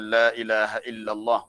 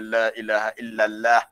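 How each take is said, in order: First: The l in Allah sounds heavy and full. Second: The l in Allah sounds light and thin. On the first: The speaker calls it right. "kita orang Melayu kena sebut dengan betul" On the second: The speaker calls it wrong.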